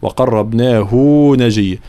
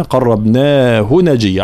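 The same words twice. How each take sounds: First: "وقربناه" with the final hu stretched; wrongly prolonged ha. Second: Slow recitation, short "hu" ending "قربناه"; long naa, short hu in "قربناه"; unprolonged pronoun ha. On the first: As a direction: draw out hu before "نجيا". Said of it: "علاش ما قلناش". (وقربناه بمد الهاء خطأً) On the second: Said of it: "علاش ما مديناهاش هنا؟". (قربناه بلا مد للهاء) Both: Shown as a demonstration.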